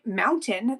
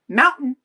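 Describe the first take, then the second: First: The middle t sound is clearly pronounced. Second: The middle t sound is dropped entirely.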